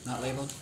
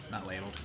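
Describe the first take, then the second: First: "Not ladled?" asked with a rising question tune; asking tune. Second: "Not ladled." settled, lower and softer with a falling tune; confirming fall. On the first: Checks the drink order. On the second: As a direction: drop "ladled" down as a statement. Confirms the drink order. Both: Real, not acted.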